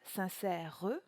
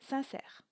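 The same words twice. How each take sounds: First: The final E is sounded as an extra syllable. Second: The final E is silent, giving two syllables. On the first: The speaker calls it wrong. "On ne dira donc pas" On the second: The speaker calls it right. "mais bien sincère, ce qui fera deux syllabes"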